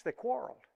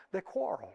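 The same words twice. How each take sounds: First: They quarreled. said higher, rising at the end; rising repeat. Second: They quarreled. said softly, dropping at the end; falling statement. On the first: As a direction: lift quarreled. upward, softly. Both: Shown as a demonstration. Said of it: "It says it twice".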